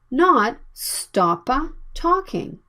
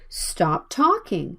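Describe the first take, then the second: First: A small extra vowel follows the P. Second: The P runs straight into the T. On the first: The speaker calls it wrong. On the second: The speaker calls it right. "Stop talking is the natural sound"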